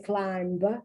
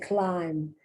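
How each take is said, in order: First: A b sound is pronounced at the end. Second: No b sound is pronounced at the end. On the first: The speaker calls it wrong. "you don't say climb" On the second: The speaker calls it right. "you say climb. You don't pronounce the B"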